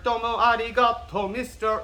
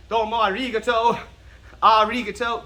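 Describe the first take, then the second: First: Loud, high chant with tapped R in "arigato"; sung, belt "Domo arigato" high, evenly accented; sung, quoted song lyric. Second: "arigato" as loud, high "AH-ree-guh-TOE"; wrong overemphasis. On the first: Acted. Teacher quoting what you've heard, high chanted lyric. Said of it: "So if you've heard". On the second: Shown as a demonstration. Teacher mocking what it's not, exaggerated stress. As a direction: shout "arigato" with heavy first syllable, English R. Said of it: "putting a lot of emphasis".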